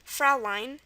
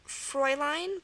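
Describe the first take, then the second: First: The first vowel sounds like 'ow'. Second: The first vowel sounds like 'oi'. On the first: "this is also pronounced" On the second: "Another one is"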